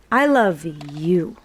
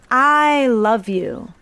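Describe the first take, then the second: First: "I love you" with the weight on "you", lower and gentle; loving "I love you", "you" stressed. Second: "I love you" with the weight on "I", slow; self-focused "I love you", "I" stressed. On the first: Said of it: "I'm gonna emphasize you". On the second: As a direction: lean on "I" in "I love you", drawn out. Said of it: "purely an emphasis". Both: Shown as a demonstration.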